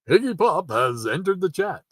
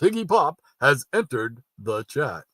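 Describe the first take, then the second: First: It is said in a plain reading voice. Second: It is said in a booming announcer voice.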